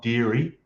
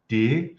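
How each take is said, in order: First: The name is said with two syllables. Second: The name is said with one syllable. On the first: The speaker calls it wrong. "not Deary" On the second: The speaker calls it right. "I think it's pronounced Deer"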